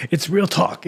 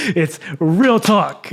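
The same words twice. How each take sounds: First: Said in the usual way. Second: "it's real talk" drawn out slowly, leaning on "real"; slow emphasis. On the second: Real, not acted. Pressing the point home to the viewers, slow and stressed.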